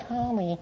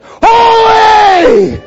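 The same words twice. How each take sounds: First: Tiny, very soft, high voice; feeble little call. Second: Huge high-pitched drawn-out shout; thunderous angel cry. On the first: Shown as a demonstration. Preacher showing how the angels did not sound, feeble and soft. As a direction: barely say it, meek and small. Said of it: "It's not like". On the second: Acted. Angels calling out in the throne room, thunderous shout. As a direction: bellow it as if it shakes the building. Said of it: "it's a little more than that".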